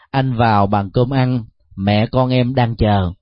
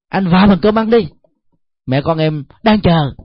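First: It is said in a warm, caring tone. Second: It is said in a tense, irritated tone. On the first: The speaker shows concern and understanding. "Đó là một sự quan tâm, một sự thông cảm" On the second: The speaker disapproves and is resentful. "mời cơm chồng mà nói với cái ngữ điệu thế này"

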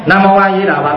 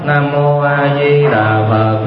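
First: The phrase is recited very quickly. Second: The phrase is recited at a moderate pace. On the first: The mind is scattered. The speaker calls it wrong. "Thế còn niệm mà quá nhanh" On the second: The mind is steady and clear. The speaker calls it right. "Niệm mới vừa thôi"

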